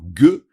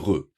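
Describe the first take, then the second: First: The consonant is a hard g sound. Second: The consonant is a throaty r-like sound. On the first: The letter carries the dot. "le Guimel avec un Dagesh, ça se dit Ge" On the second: The letter carries no dot. "le Guimel sans Dagesh, ça, ça se dit Re"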